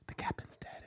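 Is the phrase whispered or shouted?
whispered. The phrase is said in a whisper. The news is passed on quietly.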